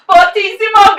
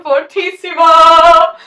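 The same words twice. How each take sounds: First: Fortissimo said loud, not sung; loud spoken fortissimo. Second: Sung, belt the word fortissimo. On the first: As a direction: call out fortissimo. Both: Shown as a demonstration. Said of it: "then we have fortissimo".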